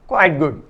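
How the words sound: Quite and good carry equal stress. It is moderately good. "Quite तथा गुड पर बराबर strength या बल होने पर"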